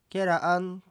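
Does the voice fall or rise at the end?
rise. The pitch rises at the end. It asks whether something is delicious.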